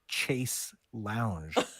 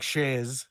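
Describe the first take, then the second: First: It is said the American way, 'chase'. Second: It is said the British way, French-sounding.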